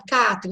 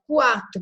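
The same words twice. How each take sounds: First: "quatro" said as "catro", without the w glide; U left out. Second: "quatro" with the w glide, "kwatro"; U pronounced. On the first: Teacher contrasting how "quatro" is spoken, U left silent. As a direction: drop the U sound in "quatro": "catro". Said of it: "eu não falo quatro". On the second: Teacher contrasting how "quatro" is spoken, U sounded as w. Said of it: "Eu falo quatro". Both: Shown as a demonstration.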